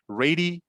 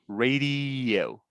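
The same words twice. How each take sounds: First: The two final vowels are split by a pause. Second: The two final vowels are joined by a y-sound. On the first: The speaker calls it wrong. "We don't say radio. We don't make that pause in the middle" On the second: The speaker calls it right. "We connect them with a y sound"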